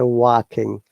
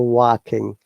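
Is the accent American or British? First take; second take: American; American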